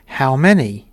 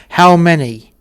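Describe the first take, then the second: First: Said in the usual way. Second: Louder, higher, pressing repeat of the question; stern demand. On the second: Retold or imitated. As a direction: bark it like an officer losing patience. Officer repeats question to crew.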